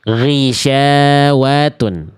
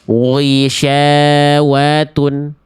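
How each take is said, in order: First: The first sound is said with unrounded, relaxed lips. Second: The first sound is said with rounded, pursed lips. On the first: The speaker calls it right. "Tetap gak boleh monyong ya" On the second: The speaker calls it wrong. "nggak boleh dibaca gini"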